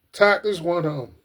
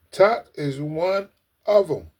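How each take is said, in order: First: Said in the usual way. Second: "Todd is one of 'em" slow, word by word; emphatic repeat. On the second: Real, not acted.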